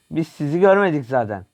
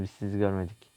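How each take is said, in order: First: Louder and higher. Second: Hushed. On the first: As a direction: repeat it loud and higher, teasing. (yüksek sesle, takılarak) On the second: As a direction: drop to a near hush, softly. (alçak sesle, gizlice) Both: Pretend. Sneaking past enemies, joking.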